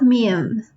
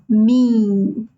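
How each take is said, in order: First: The vowel is said without nasal sound. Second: The vowel is said through the nose. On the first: The speaker calls it wrong. "not mim" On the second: The speaker calls it right. "mim, nasal"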